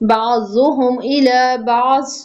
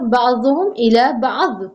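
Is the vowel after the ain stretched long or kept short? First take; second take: long; short. First: The vowel after the ain is stretched long. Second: The vowel after the ain is kept short. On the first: The speaker calls it wrong. "हम इसको खूबसूरत पढ़ने में आइन को लंबा कर जाते हैं" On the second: The speaker calls it right. "कुछ लंबा नहीं है ... इसी तरह ये भी पढ़ा जाएगा"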